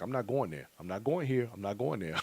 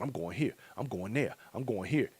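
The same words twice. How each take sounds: First: Each line falling, a touch softer; cross the plans off one by one, resigned; deflated. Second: Eager rising lilt on each place, a little softer; listing plans like a giddy kid at Christmas. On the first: Counting the cost, mock-resigned no to each event. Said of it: "start adding up that money". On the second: Mock-giddy kid planning every event. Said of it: "like a kid at Christmas time". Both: Retold or imitated.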